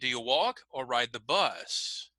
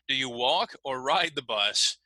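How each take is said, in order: First: The stress falls on walk and bus. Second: The stress falls on other words than these. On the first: The choice is between walking and the bus. The speaker calls it right. "Maybe walk and bus would be the uh, choices here" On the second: It sounds as if one might walk the bus. The speaker calls it wrong. "we wouldn't say"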